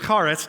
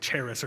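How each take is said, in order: First: The word is said with a Hebrew-style pronunciation. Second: The word is said with an English pronunciation. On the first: The speaker calls it right. "but it's Charis" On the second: The speaker calls it wrong. "we English speakers might want to say charis or something like that"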